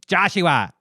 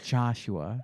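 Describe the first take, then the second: First: The name is said like a mother calling. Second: The name is said in a sweet, romantic way.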